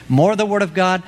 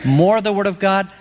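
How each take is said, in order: Both takes have the same delivery.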